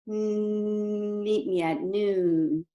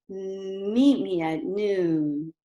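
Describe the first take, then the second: First: The voice is smooth and forward-focused. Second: The voice is bouncy with lively intonation.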